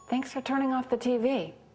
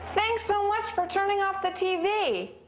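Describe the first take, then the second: First: It sounds somewhat enthusiastic, but only moderately. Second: It sounds absolutely thrilled and very enthusiastic.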